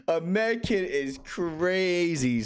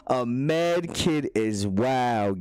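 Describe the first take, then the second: First: Stretched slow and higher; slow drawn out. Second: Very slow, level; slow drawn out. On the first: Streamer savoring chat's joke, slowly. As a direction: drag out a med kit slowly. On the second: Streamer repeating chat's joke, slowly. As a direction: draw out a med kit, easy. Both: Shown as a demonstration.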